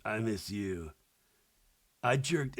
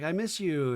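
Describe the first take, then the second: First: Low, quiet mock-drunk boyfriend; soft, low tipsy impression of a boyfriend. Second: Lightly voiced girlfriend; girlfriend's tender line, lightly acted; girlfriend's part. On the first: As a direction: imitate him mumbling low, a little hammered. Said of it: "a little hammered". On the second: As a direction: lightly imitate a girlfriend on video call. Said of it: "And she's like".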